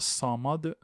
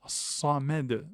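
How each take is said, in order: First: The m and its vowel sound heavy and emphatic. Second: The m and its vowel sound thin and light. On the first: The speaker calls it wrong. "non pas samad" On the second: The speaker calls it right. "il faut qu'il reste aminci"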